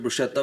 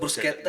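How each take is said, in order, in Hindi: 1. बीच का व्यंजन 'sh' की तरह बोला जाता है। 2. बीच के व्यंजन 'sk' की तरह बोले जाते हैं। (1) "उसका प्रोनाउंसिएशन ब्रुशेत्ता है ही नहीं" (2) "ब्रुस्केत्ता होता है उसका प्रोनाउंसिएशन"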